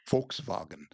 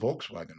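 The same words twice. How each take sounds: First: It is said with a German pronunciation. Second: It is said with an English pronunciation.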